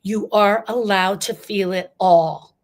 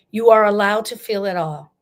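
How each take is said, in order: First: Slow, firm and deliberate, each word weighted; measured build before the shout; slow emphatic first take. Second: Louder, ringing declaration; loud rallying call to grievers. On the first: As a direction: lean on "are" and lay it down slowly. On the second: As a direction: proclaim it out loud to the whole room. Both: Shown as a demonstration. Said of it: "I'm gonna say this very loud".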